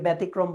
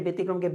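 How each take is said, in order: First: "ব্যতিক্রম" said with "bæ" at the start; common mispronunciation. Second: "ব্যতিক্রমকে" said with "be" at the start; standard e vowel. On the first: Teacher showing a common regional slip, ব্যতিক্রম with open æ. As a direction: say "ব্যতিক্রম" as "bætikrom", open vowel. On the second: Teacher naming the correct word, ব্যতিক্রমকে with an e vowel. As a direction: say "ব্যতিক্রমকে" as "betikrom-ke". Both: Shown as a demonstration. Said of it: "অনেকে ব্যতিক্রমকে ব্যতিক্রম বলে থাকি".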